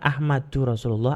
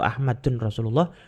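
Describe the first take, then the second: First: The first word ends with an added 'u' vowel. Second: The first word ends with an added 'un' sound. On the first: "bukan Ahmadu Rasulullah" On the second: "atau Ahmadun Rasulullah"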